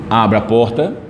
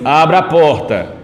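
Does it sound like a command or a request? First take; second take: request; command. First: It is said gently, like a request. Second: It is said firmly, like a command. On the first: The listener is being asked to act. "inicialmente, a gente faz um pedido" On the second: The listener is being ordered to act. "já soa mais como se fosse uma ordem"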